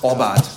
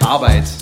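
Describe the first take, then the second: First: Regional dialect, with an 'o' vowel at the start. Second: Standard German, with an 'a' vowel at the start.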